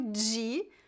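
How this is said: It is said in the São Paulo style. "Eu sempre digo de, pois este é o meu sotaque"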